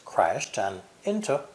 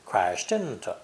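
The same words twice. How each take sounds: First: "crashed" and "into" slowly apart; separate words. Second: "Crashed into" joined as "crash-tinto"; connected words. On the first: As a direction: give "crashed" and "into" each its own slow beat. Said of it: "The two words crashed and into". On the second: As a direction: carry the final t of "Crashed" into "into". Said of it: "are easily connected like this". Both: Shown as a demonstration.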